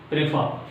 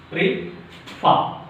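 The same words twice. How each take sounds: First: Said in the usual way. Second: Prefer in two parts with a long pause between; split into syllables. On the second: Shown as a demonstration. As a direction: break "Prefer" after "pre", first part rising. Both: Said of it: "divide the word into syllable".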